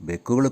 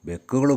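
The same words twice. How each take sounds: The two takes are said the same way.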